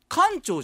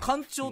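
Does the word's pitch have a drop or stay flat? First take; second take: drop; flat. First: The pitch rises and then drops within the word. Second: The pitch stays level across the whole word. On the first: This is the common everyday pronunciation. The speaker calls it wrong. "艦長じゃないんですってね" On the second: This is the official pronunciation used by insiders. The speaker calls it right. "平板に言うのが正式なアクセントなんですって"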